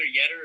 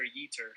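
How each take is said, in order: First: Yetter with a short e, YET-er; pronunciation option. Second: Yeter with a long e, YEE-ter; alternative pronunciation. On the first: Speaker offering co-host two ways to say a name, short-e Yetter. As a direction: say Yetter to rhyme with "better". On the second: Speaker offering co-host two ways to say a name, long-e Yeter. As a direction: say Yeter to rhyme with "heater". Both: Shown as a demonstration. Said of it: "it's either Yetter or Yeter".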